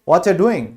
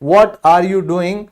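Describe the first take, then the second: First: The words run together and 'you' drops out. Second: Every word is said separately and in full.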